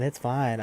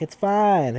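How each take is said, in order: First: Said in the usual way. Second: "It's fine" tossed off much higher and louder; dismissive. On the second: Retold or imitated. Boyfriend brushing off his scared girlfriend, high loud dismissal. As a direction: wave her worry away with a high yelp.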